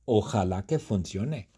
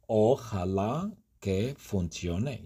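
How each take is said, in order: First: Said in the usual way. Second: Slow, careful repeat for learners; said slowly. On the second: Shown as a demonstration. Teacher repeats the wish slowly for students. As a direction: stretch each word out like a teacher.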